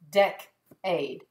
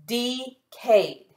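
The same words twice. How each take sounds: First: "decade" as DEK-ade, short E like "deck"; teacher lands on "decade" correctly with a short E; right short-E reading. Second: "Decade" as DEE-cade, long E like "dee"; teacher tests "Decade" wrongly as DEE-cade with long E; wrong long-E try. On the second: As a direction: sound out "Decade" with a long E in the first syllable, DEE-kayd. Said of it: "That's not what that word is". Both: Shown as a demonstration.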